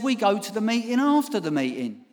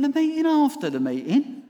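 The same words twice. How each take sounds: First: Said in the usual way. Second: High rising The meeting after the meeting; incredulous echo. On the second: Retold or imitated. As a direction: repeat it in disbelief.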